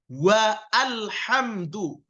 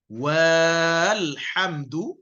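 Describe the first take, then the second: First: Wa is split from a separately voiced al. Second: The wa vowel is drawn out long. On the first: "Bukan juga wa alhamdu, itu salah" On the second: "Bukan walhamdu, itu salah"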